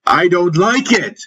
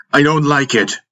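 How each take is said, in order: First: Very high-pitched, scornful outcry; contemptuous scream. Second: Angered. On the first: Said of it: "I screamed in contempt". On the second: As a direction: push back in a higher, angry voice. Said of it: "and that angered me". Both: A narrator's reading.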